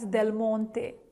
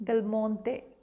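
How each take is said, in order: No difference in how they are said.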